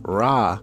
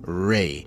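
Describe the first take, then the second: First: The name ends with an open 'ah' vowel. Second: The name ends with an 'ay' vowel. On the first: This is the usual English form of the name. "Ra is how you say in English the Egyptian name for the sun god" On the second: This is the original ancient Egyptian form. "in his original pronunciation in ancient Kemet, it would be Re"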